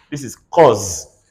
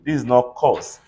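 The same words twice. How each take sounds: First: Cause with a buzzing Z at the end, slow; cause said slowly, ending in a Z sound; right Z sound. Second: Cause with a hissing S at the end, wrong; cause said with a plain S, the wrong way; wrong S sound. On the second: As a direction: say cause ending in a sharp S. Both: Shown as a demonstration. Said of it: "not every S you see is an S".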